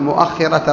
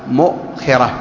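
First: The hamza in the word is followed by a vowel. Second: The hamza in the word carries no vowel. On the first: A large part about a metre and a half long. The speaker calls it wrong. "تقول مؤخرة الرح" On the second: The back post of a camel saddle. The speaker calls it right. "بتسكين الواو الهمزة"

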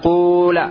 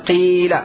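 First: The first vowel is a pure u sound. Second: The first vowel is a pure i sound. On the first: "لا يأتي به بالضم الخالص" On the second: "ولا بالكسر الخالص"

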